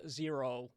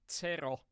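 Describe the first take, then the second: First: "Zero" with an English z, "zee-roh"; "Zero" said as the English number, ZEER-oh; English pronunciation. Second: "Zero" as Finnish "tsero", rolled r, short vowels; "Zero" with a Finnish ts-sound, tseh-ro; Finnish pronunciation. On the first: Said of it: "the correct way to pronounce my nick is not". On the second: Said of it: "like we do in Finland". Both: Shown as a demonstration.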